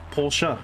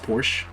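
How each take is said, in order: First: It ends with an extra final vowel syllable. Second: It ends without a final vowel sound. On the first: The speaker calls it right. "in German we pronounce every letter" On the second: The speaker calls it wrong. "they'll pronounce it just like, oh yeah, it's a Porsche. It's like, no, it's not"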